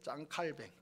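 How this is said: The name is said French-style, ending in 'bang'. This is the original French form of the name. The speaker calls it right. "프랑스 사람이었기 때문에 짱 칼뱅으로 불러야 돼요"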